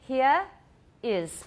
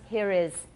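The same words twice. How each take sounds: First: No R sound is heard between the words. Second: An R sound links the two words.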